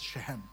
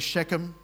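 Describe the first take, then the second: First: The name is said the original, authentic way. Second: The name is said the usual English way.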